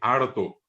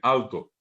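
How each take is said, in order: First: The first syllable ends with an R sound. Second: The first syllable ends with an L sound. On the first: The speaker calls it wrong. "escuchar a mis camaradas por hablante decir harto" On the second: The speaker calls it right. "en vez de decir alto"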